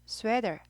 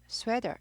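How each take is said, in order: No difference in how they are said.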